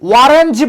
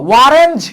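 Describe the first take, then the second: First: The word begins with a w sound. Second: The same.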